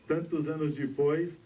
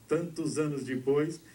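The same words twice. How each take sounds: The two takes are said the same way.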